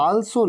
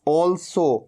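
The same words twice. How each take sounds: First: Also as "aal-so"; wrong open AA. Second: Also as "awl-so"; correct rounded vowel. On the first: Teacher rejects students' mistake, aa in also. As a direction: start also with a long AA. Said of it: "also नहीं". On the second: Teacher answers own question, aw in also. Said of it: "क्या कहना है?". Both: Shown as a demonstration.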